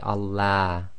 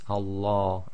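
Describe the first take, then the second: First: The L is light, said with a thin mouth. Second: The L is heavy, said with a full mouth. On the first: The speaker calls it wrong. "You can't say Allah" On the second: The speaker calls it right. "so be very careful. It's Allah"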